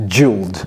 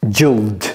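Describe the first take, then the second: The two takes are said the same way.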